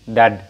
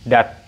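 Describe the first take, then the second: First: The word ends with a d sound. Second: The word ends with a t sound. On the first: The speaker calls it wrong. "kalau dad maka ini salah" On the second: The speaker calls it right. "maka ini bunyinya adalah dat ya"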